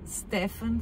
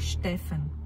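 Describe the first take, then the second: First: The name begins with a plain 'st' sound. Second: The name begins with an 'sht' sound.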